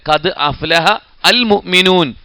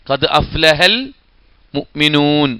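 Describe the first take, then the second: First: The hamza before 'al' is pronounced separately. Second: The hamza is dropped and 'aflaha' links into 'al'. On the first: The speaker calls it wrong. "എന്ന് പറയണ്ട" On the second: The speaker calls it right. "ആ ഹംസ എന്ത് ചെയ്യേണ്ടതില്ല, ഉച്ചരിക്കേണ്ടതില്ല"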